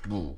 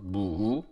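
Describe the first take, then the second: First: The word is said as one short syllable. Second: The word is stretched into two syllables. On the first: "One syllable" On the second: "some people may pronounce it as two syllables"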